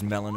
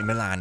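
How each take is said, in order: First: The name is pronounced in a plain, ordinary way. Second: The name is pronounced in an exaggeratedly elegant way. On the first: "I don't know if it's Melon or whatever" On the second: "I like to pronounce it excessively elegantly"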